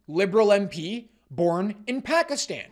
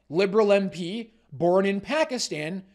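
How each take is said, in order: Both takes have the same delivery.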